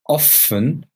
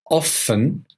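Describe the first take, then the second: No difference in how they are said.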